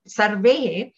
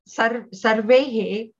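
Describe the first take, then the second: First: Said in the usual way. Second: "sarvehe" split slowly as sar-ve-he; syllable by syllable. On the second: Shown as a demonstration. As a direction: spell out "sarvehe" by sound.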